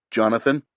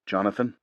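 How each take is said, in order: First: Louder, rising call of "Jonathan?"; urgent question. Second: Calm, even call of his name; measured tone. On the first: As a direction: press him with "Jonathan?" firmly. Urgent repeat after no answer. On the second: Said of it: "in a measured tone". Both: A narrator's reading.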